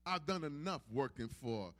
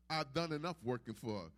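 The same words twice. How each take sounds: The two takes are said the same way.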